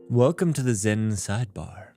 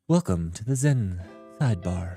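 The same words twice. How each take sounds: First: It is said in his normal voice. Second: It is said in a put-on calm voice.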